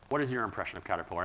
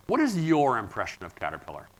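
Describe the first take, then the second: First: Softer, faster repeat of "What is your impression of Caterpillar?"; quick quiet repeat. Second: Said in the usual way. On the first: Real, not acted. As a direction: toss the question again, quieter and quicker.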